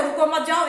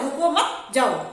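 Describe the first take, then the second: First: रुको, then मत जाओ run together; quicker take with मत जाओ as one unit; first grouping. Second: रुको मत together, then जाओ; slower take, clear break before जाओ; pause after मत. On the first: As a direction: keep मत tied to जाओ. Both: Shown as a demonstration. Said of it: "वो अलग अलग हो".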